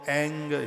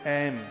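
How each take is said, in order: First: The syllable ends with an ng sound. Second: The syllable ends with an m sound. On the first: The speaker calls it wrong. "बहुत लोग इसको एंग बोलते हैं" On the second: The speaker calls it right. "शुद्ध उच्चारण इसका यही है"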